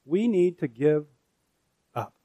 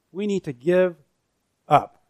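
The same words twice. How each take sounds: First: Said in the usual way. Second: A firm, emphatic give up; stress on up. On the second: Shown as a demonstration. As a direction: press the word up down hard.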